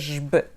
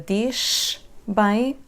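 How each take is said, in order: First: The z sound is a buzzing voiced zh. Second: The z sound is said without voicing. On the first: The speaker calls it right. "vai ser jb" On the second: The speaker calls it wrong. "Não vai ser diz bem"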